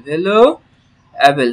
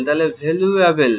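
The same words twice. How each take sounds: First: valuable drawn out very slowly, syllable by syllable; slow teacher demo; slow model word. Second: Said in the usual way. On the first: Shown as a demonstration. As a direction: stretch it so learners hear each part. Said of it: "teacher models the word". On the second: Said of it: "quick take before slow model".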